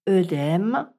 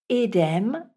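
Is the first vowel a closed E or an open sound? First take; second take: open; closed E. First: The first vowel is an open sound. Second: The first vowel is a closed E sound. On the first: "si vous entendez ces termes prononcés œstrogène ou œdème" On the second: "il faut là aussi prononcer le E dans l'eau avec un E fermé"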